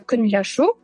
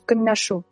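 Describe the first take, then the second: First: The l sound after n is clearly pronounced. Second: The l assimilates to n after n. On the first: "пишется кынляшу, лэ, ляшу" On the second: "Но многие произносят кынляшу"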